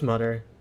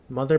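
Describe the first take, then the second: First: The middle sound is a hard t. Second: The middle sound is a soft th. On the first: "Mother becomes mutter" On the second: "dropping the th sounds"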